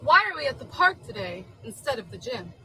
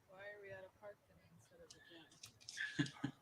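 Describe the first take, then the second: First: It is asked in an enthusiastic, lively tone. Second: It is asked in a flat, unenthusiastic tone.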